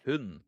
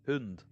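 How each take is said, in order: First: Said in another accent, final D clearly heard. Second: Said in another accent, final D clearly heard.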